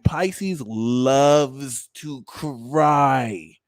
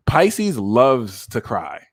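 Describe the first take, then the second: First: LOVES TO CRY stretched out very slowly; hugely slow, emphatic "loves to cry"; drawn-out emphasis. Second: Said in the usual way. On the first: Shown as a demonstration. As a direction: drag out each word of "loves to cry". Repeats the claim for emphasis.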